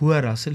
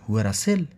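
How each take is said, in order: First: It is said as a plain statement. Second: It is pushed to sound like a question.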